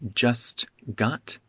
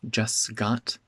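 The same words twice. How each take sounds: First: The T at the end of 'just' is pronounced. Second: The T at the end of 'just' is dropped.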